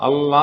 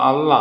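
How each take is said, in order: Both takes have the same delivery.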